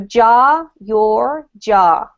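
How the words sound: The middle word's vowel differs, American style. "If you are speaking an American accent, they're slightly different"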